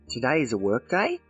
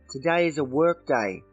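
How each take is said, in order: First: The voice rises at the end. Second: The voice falls at the end.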